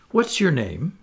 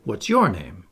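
First: A lightly voiced boy asking, a touch brighter; boyish question. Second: A lightly voiced girl, a touch lower, stress on your; girlish question. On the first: Peter asking the girl her name, lightly voiced boy. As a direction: ask it like a curious boy. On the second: Wendy returning the question to Peter, hint of a girl. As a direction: turn it back on him with stress on your. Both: A narrator's reading.

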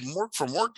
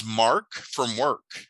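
First: "Mork" said with an open o as in "fork", like the TV alien; the famous name "Mork from Work", rhymed. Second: "Mark" said slowly with a plain ar as in "car". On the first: Retold or imitated. Misheard name told to dad, "Mork" with o. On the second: Shown as a demonstration. Correcting the old story to the real name, slow "Mark". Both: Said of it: "It was Mark from Work".

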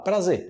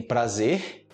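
First: "prazer" as "pra-ZEH"; silent final R. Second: "prazer" ending in a breathy R; final R sounded. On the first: Teacher giving the spoken option, "prazer" without R. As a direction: end "prazer" on the vowel, no R. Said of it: "você pode falar prazer". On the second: Teacher introducing the written word, "prazer" with final R. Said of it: "você tem prazer". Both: Shown as a demonstration.

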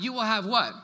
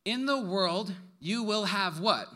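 First: Prompting the crowd to answer; said with more push. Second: Said in the usual way. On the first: Shown as a demonstration. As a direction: pastor urging the congregation to answer with more push. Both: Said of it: "you can say it louder than that".

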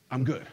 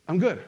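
First: Understated reply after clearing the throat; subdued acted assurance; hesitant cover-up. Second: Brisk mock assurance; put-on fine. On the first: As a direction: hold back hurt and claim to be fine. Same answer again, hiding hurt. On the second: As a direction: insist you are fine after a pause. Acts churchgoer's cover-up answer after pause.

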